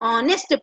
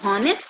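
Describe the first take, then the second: First: The word begins with a vowel sound. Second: The word begins with an h sound. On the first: The speaker calls it right. "ऑनेस्ट पढ़ेंगे, एस silent है" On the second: The speaker calls it wrong. "हॉनेस्ट नहीं"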